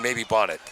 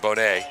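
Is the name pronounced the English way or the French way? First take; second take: English; French. First: The name is pronounced the English way. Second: The name is pronounced the French way. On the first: The speaker follows football. "If you're a football fan" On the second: The speaker follows hockey. "you go with the French pronunciation"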